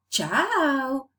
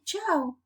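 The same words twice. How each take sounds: First: "ciao" drawn out slowly, higher, English-style; wrong tune for Spanish. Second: Short "ciao" with a simple fall; Spanish intonation. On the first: Teacher mimicking a wrong Spanish farewell, drawn-out "ciao". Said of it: "Do we? No". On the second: Teacher correcting the tune, short Spanish "ciao". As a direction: say "ciao" briefly, falling. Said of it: "each language has its own intonation". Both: Shown as a demonstration.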